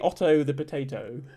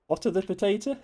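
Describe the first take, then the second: First: It is said in a posh English accent. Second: It is said in an everyday, non-posh accent. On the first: "if you're being posh" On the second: "that sounds like otter"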